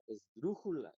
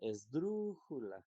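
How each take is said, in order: First: The stress is on the second-to-last syllable. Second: The stress is on the third-to-last syllable. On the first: The speaker calls it wrong. "Si la penúltima fuera la sílaba tónica" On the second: The speaker calls it right. "dru es la sílaba tónica"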